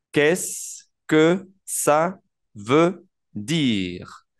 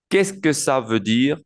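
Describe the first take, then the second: First: Extremely slow, long pause after each word. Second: Whole phrase linked, measured pace; joined-up model. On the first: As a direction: stretch out every word for beginners. Teacher breaks the phrase down. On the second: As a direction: run the words together clearly for learners. Teacher repeats the phrase joined up. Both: Shown as a demonstration.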